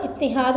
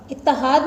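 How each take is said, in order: First: इत्तिहाद with an i after the double t, "ittihaad"; correct pronunciation. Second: इत्तिहाद with an a after the double t, "ittahaad"; wrong pronunciation. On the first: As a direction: say इत्तिहाद as "it-ti-haad". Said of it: "इत्तिहाद होता है". (इत्तिहाद का सही तलफ़्फ़ुज़, "त" के नीचे ज़ेर) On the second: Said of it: "नहीं होता". (इत्तिहाद का ग़लत तलफ़्फ़ुज़, "इत्तहाद") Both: Shown as a demonstration.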